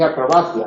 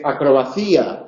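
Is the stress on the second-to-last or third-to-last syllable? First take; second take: third-to-last; second-to-last. First: The stress falls on the third-to-last syllable. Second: The stress falls on the second-to-last syllable. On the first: The speaker calls it right. "se dice" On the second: The speaker calls it wrong. "No se dice"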